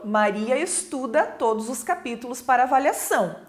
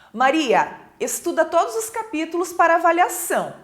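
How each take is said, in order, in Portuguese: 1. Não há pausa depois da primeira palavra. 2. Há uma pausa depois da primeira palavra.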